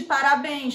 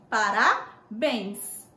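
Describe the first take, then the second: First: Parabéns said as parabém, no final s; singular form without S. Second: Parabéns very slow, split as para-béns with a clear s; plural with final S. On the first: Teacher tests pupils with a false singular, parabéns said without its final s. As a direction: drop the s of parabéns, ending on a nasal bém. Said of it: "Não". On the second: Teacher corrects the false singular, Parabéns slow with a clear final s. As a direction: spell out Parabéns in two parts, sounding the final s. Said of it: "ela só existe no plural". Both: Shown as a demonstration.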